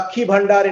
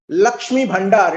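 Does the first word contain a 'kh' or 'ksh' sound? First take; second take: kh; ksh. First: The first word is said with a 'kh' sound. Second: The first word is said with a 'ksh' sound.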